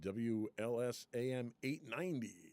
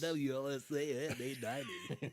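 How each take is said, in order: First: It is said in a normal reading voice. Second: It is said in a radio announcer voice.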